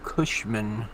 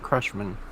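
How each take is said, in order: First: The name is said without an R sound. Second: The name is said with an R sound. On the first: The speaker calls it right. "not Crushman" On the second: The speaker calls it wrong. "not Crushman"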